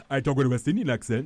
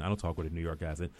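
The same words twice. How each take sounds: First: Quick, higher, louder West Indian accent. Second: Said in the usual way. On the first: Shown as a demonstration. Actor explaining his real voice to the host, in a loud West Indian accent. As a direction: show off your own West Indian accent, fast and loud.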